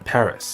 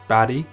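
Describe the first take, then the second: First: The name is said with English pronunciation. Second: The name is said with French pronunciation. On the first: "in English, you refer to the capital of France as Paris" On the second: "In Korean and French, however, you refer to the capital of France as Paris or Paris"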